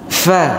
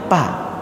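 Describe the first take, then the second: First: It starts with a breathy f sound. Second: It starts with a p sound. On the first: The speaker calls it right. "fa harus berhembus" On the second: The speaker calls it wrong. "fa ini bukan fa dibaca, pa"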